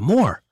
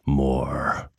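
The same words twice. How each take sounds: First: It is said in an upbeat, lively way. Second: It is said in a spooky horror-story way.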